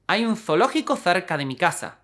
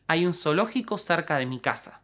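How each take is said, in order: First: The z and c sound like th. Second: The z and c sound like s. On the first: "they make a distinction and pronounce fe, feta, but s" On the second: "we never use the sound fa, only sa"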